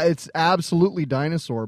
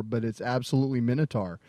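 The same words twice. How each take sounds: First: Dinosaur ending with a full sore; dinosaur as usual. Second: Minotaur ending in a short tar. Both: Shown as a demonstration. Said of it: "Because, yeah".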